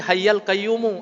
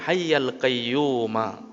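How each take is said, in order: First: The first ends in a, the second in u. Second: Both words end with an a vowel. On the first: Mixing the two forms is not allowed. The speaker calls it wrong. "sekali hayyal kemudian qayyumu ... baris atas kemudian kita rubah menjadi baris dhammah ... Itu tidak ada" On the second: This is the form found in the hadith. The speaker calls it right. "Kalau dalam hadis berbunyi hayyal qayyuma"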